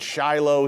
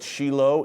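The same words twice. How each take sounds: First: The name is said with a Western English pronunciation. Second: The name is said with an Israeli pronunciation. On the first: This is how people in the West say it. "We pronounce it Shiloh here in the West" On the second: This is how Israelis say it. "but Israelis call it Shiloh"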